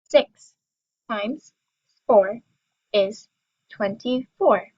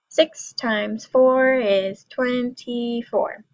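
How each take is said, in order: First: It is said at a slow, normal pace. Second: It is said a little faster.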